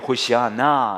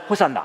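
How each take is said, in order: First: The word is said in full, four syllables. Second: The word is run together into three syllables. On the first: This is the original form of the word. "원어로 말하면 이렇게 해야 돼요" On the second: Repeating the word wore it down into the familiar form. "계속 말하면 ... 이렇게 되는 거예요"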